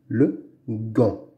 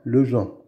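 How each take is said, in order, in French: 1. Le g est dur, comme dans go. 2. Le g est doux, comme le son j. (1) "Devant la lettre A, on dit gant" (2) "on ne dit pas le Jean"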